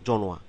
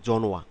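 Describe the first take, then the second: No difference in how they are said.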